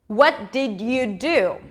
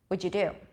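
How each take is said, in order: First: Every word is said fully and separately. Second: What did is squeezed together into one reduced syllable.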